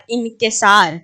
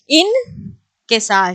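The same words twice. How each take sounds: First: Said in the usual way. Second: انکسار stretched very slowly, the ک sounded apart from the ن; slow pronunciation demo. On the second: Shown as a demonstration. Teacher showing students the separate ک, very slowly. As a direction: draw out انکسار so the ک stands alone. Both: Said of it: "جب میں کہہ رہی ہوں انکساری".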